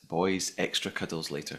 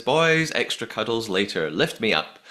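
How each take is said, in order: First: Said in the usual way. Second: Mock summons to the boys; calling her boys. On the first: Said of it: "I wonder if that's my episode title". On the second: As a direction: call out "Boys", then settle. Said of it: "She says".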